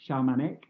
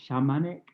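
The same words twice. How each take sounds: The two takes are said the same way.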